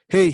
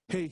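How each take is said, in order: First: The shout is loud with sharp, unevened peaks. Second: The shout is evened out and sounds less loud. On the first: "voy a gritar ahora sin compresor" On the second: "Ahora voy a gritar con el compresor puesto"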